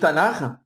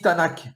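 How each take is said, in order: First: The word ends in a throaty, rasping sound. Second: The word ends in a plain hard k. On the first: This is the usual pronunciation. "au lieu de dire Tanar" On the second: "ils disent Tanak"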